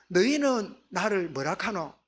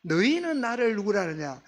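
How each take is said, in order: First: Slow question in Gyeongsang dialect; lightly put-on Gyeongsang speech, drawn out. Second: Said in the usual way. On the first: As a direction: recast the question with a Gyeongsang accent. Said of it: "우리 경상도 사투리면". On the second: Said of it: "예수님이 다시 묻습니다".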